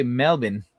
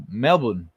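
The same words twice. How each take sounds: First: Melbourne said "Mel-bin", as chat says not to; the way Australians don't say Melbourne; the rejected Melbourne; wrong Melbourne. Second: Melbourne said "Mel-bn", short and falling; Melbourne the Australian way; right Melbourne. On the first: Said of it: "We don't say Melbourne". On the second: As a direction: say Melbourne the local way. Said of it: "We say Mel". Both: Shown as a demonstration.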